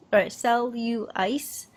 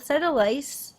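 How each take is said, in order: First: Cellulitis said slowly, sell-you-litis; careful slow cellulitis with yoo; corrected pronunciation. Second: Cellulitis said as sedulitis, rising; mispronounced. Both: Shown as a demonstration.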